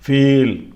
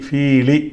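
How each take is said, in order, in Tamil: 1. சொல் வெறும் மெய்யொலியில் முடிகிறது. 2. சொல் ஒரு கூடுதல் உயிரொலியில் முடிகிறது. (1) "இதோட முடிச்சிட்டோம்" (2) "கண்டினியூவாக வாசிட்டு போனால் அப்படி சொல்லலாம்"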